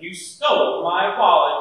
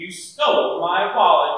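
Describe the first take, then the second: First: It is said in a genuinely angry tone. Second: The same.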